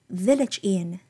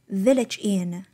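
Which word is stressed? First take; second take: village; village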